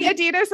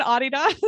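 First: "Adidas" with the stress on DEE; American pronunciation. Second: "Adidas" stressed on an open first AH; European pronunciation. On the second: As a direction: say "Adidas" as AH-dee-dahs. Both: Shown as a demonstration. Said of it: "Depends on where you are".

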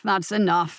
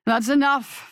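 First: Said in the usual way. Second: Raised, higher call of "That's enough"; commanding call. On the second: Acted. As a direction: cut them off with a sharp raised call. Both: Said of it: "A new voice echoed".

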